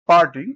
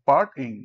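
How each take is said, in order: First: Said in the usual way. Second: "part ইং" in two parts, with a small break before ইং; split into syllables. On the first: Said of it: "পার্টিংকে যদি ভাঙ করি". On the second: Shown as a demonstration. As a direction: break the word after part: "part, ইং". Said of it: "যদি ভাঙ করি".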